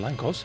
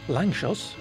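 First: The middle consonant is a 'k' sound. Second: The middle consonant is a 'ch' sound. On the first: The speaker calls it wrong. "rather than Langkos" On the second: The speaker calls it right. "you are supposed to pronounce it Langchos"

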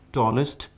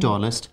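First: The ending has a reduced 'i' vowel, 'ist'. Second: The ending has a full 'e' vowel, 'est'. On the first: The speaker calls it right. "EST should be pronounced as ist" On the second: The speaker calls it wrong. "people often pronounce the superlative form with ST as est"

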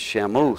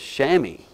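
First: The word is read literally, letter by letter. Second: The word is said in its standard pronunciation. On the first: The speaker calls it wrong. "The word looks like to me it's Shamos" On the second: The speaker calls it right. "The proper pronunciation for the word is chamois"

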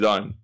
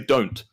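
First: The final T is slurred, not received pronunciation. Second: The final T is said crisply, received pronunciation.

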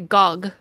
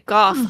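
First: The name is said the French way. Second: The name is said the English way. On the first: "the French say gog" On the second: "English people say goff"

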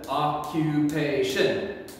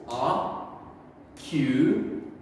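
First: It is said faster, as one smooth word. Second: It is said slowly, syllable by syllable.

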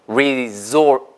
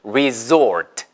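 First: It is said with an English pronunciation. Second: The same.

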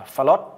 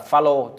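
First: The name ends with a t sound. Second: The name ends without a t sound. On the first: The speaker calls it wrong. "chứ không đọc là Phaolô. Nhiều người đọc là Phaolô bởi vì có chữ T" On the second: The speaker calls it right. "các bạn đọc là Phaolô"

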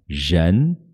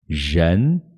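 Both takes have the same delivery.

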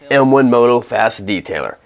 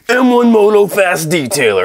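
First: It is said in a plain narrating voice. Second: It is said in a hyped infomercial announcer voice.

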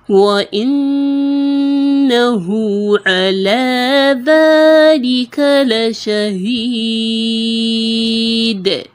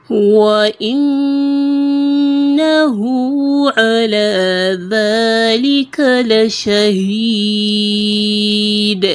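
Both takes have the same delivery.

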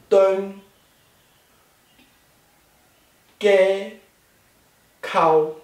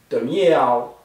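First: Each syllable is said separately in citation form. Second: The syllables are linked with changed sounds and tones. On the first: "每个字单独的读音是东街口" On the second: "你连读要念成东街口"

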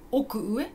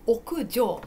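First: The word ends with the sound 'ue'. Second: The word ends with the sound 'jou'. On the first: The speaker calls it wrong. "奥上じゃなくて" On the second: The speaker calls it right. "だから読み方は奥上です"

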